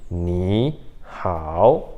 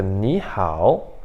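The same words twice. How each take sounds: First: "Ni hao" grave, uma pausa entre as sílabas; com pausa, travado. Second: "Ni hao" grave e ligado, sem pausa; fluido. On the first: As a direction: separe "Ni" e "hao", cada um descendo e subindo. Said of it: "parece que tem que ter uma pausa". ("Ni ... hao" quebrado, dois terceiros tons completos) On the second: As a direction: emende "Ni hao", com "Ni" subindo. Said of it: "fica bem mais fluido". ("Ni hao" natural, numa só emissão) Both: Shown as a demonstration.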